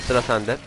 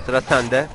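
Both takes have the same delivery.

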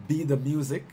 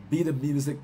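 Both takes have the same delivery.

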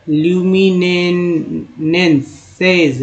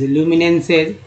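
First: ल्यूमिनेंसेज drawn out very slowly, falling at the end; slow careful demo. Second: Said in the usual way. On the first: Shown as a demonstration. Teacher slowly modelling ल्यूमिनेंसेज for the class. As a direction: stretch ल्यूमिनेंसेज slowly, syllable by syllable. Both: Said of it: "यहाँ देखिए".

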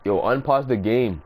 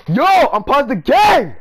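First: Said in the usual way. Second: Much higher, louder, slow yell to unpause; angry shout. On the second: Real, not acted. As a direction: bellow it out in frustration. Opponent keeps game paused.

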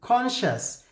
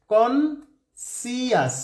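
First: কনশাস said as kon-shas, ending a short shas; plain correct কনশাস, no si sound; correct pronunciation. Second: কনসিয়াস said slowly as kon-si-as, every letter sounded; spelling pronunciation. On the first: Teacher gives the correct কনশাস after the trick. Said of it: "এবার আমি শুদ্ধ উচ্চারণ". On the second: Teacher reads কনসিয়াস as written, slowly. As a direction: spell it out as you speak: কনসিয়াস. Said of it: "এটা উচ্চারণ মনে রাখার জন্য এটা একটা কৌশল". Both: Shown as a demonstration.

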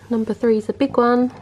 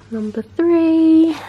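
First: Said in the usual way. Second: High, slow sing-song "Number three"; sing-song announcing. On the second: Shown as a demonstration. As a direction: stretch "Number three" out slowly, high and sung.

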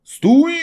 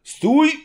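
First: Very loud high halt; officer yells at the coachman to stop; shouting. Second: Very loud high halt; officer calls out to halt; shouting. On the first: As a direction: yell stop at the driver. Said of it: "krzyknął na woźnicę". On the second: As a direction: yell stop again. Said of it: "zawołał oficer". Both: Acted.

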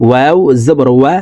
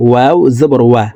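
The two takes are said the same way.

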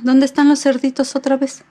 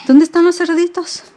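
First: Playful question. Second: Higher, louder 'los' stressed; playful search. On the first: Asking baby during book. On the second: Mom asking baby where the piglets went, high loud. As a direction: ask it with eager wonder. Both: Acted.

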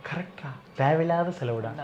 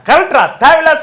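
First: Soft confiding undertone; quiet, close-up. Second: High, forceful call of agreement; loud shout. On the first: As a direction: say it gently so she won't overhear. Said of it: "பொறுமையா கிட்ட வந்து சொல்ற". (மெதுவாக, கிட்ட வந்து ரகசியமாக) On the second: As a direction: shout it out so she hears. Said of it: "first கத்தி சொல்லிடுற". (உரக்கக் கத்தி) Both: Shown as a demonstration.

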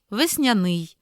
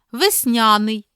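First: Весняний as vesnia-NYI; last-syllable stress. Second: Весняний as ves-NIA-nyi; middle-syllable stress. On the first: Teacher giving the other variant, final stress on весняний. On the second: Teacher reading double-stress words, middle stress on Весняний. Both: Shown as a demonstration. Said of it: "слова із подвійним наголосом".

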